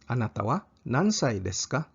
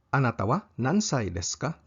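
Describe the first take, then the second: No difference in how they are said.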